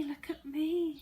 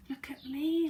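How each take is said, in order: First: High voiced cry of delight; girl flying calls to friends; excited cry. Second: High breathy whisper of delight; girl flying marvels under her breath; excited whisper. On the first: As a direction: call out so everyone looks. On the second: Acted. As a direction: whisper it in wonder while flying. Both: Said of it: "she cried".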